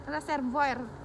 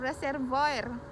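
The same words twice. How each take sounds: First: It is said in a Filipino accent, strong R. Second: It is said in a Filipino accent, strong R.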